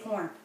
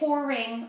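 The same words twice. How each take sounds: First: The word is squeezed into one syllable. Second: The word has two full syllables. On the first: This is how locals say it. "we say pouring" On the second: This is how outsiders say it. "We don't say pouring"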